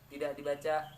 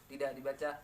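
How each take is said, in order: Both takes have the same delivery.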